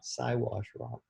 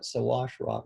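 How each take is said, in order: First: The first syllable sounds like 'sigh'. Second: The first syllable sounds like 'sah'. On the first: This form carries offensive associations. The speaker calls it wrong. "not Siwash Rock" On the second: This is the older, acceptable name. The speaker calls it right. "the old timers in B C, they call it Sawash Rock"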